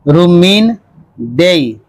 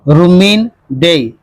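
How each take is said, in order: First: The name is said slowly and carefully. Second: The name is said at a quick pace.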